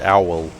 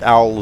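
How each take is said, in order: First: The word is said as two syllables. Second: The word is said as one syllable. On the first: Other people use this pronunciation. "some people say owl" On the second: The speaker prefers this pronunciation. "I like owl as one syllable"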